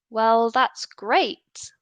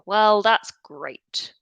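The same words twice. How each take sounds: First: The pitch rises at the end. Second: The pitch falls at the end. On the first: The speaker is genuinely excited and positive. "the first time I say it... it's rising" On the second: The speaker is being sarcastic and doesn't think it's great. "it's falling... displaying more almost sarcasm"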